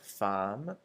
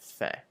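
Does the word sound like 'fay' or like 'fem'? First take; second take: fem; fay. First: The word sounds like 'fem' with an m. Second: The word sounds like 'fay' with no m. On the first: It means woman instead of hunger. The speaker calls it wrong. "not like femme or femme, because femme is the word for woman" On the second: It means hunger. The speaker calls it right. "it should be pronounced fait. So sort of like an F A Y sort of sound"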